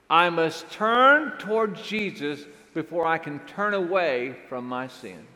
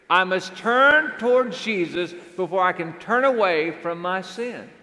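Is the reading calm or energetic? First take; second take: calm; energetic. First: It is read with ordinary, calmer energy. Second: It is read with more energy and force.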